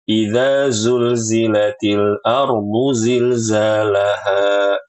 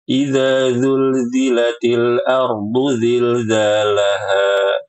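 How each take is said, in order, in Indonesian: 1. Huruf pertama 'dh', sisanya 'z'. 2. Setiap bunyi mirip z dibaca 'dh'. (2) "Kadang dibaca dengan zal"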